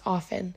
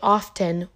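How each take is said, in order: First: The t sound is silent. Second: The t sound is pronounced. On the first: The speaker calls it right. "It's often" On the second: The speaker calls it wrong. "it has a T, so people say often, which is incorrect"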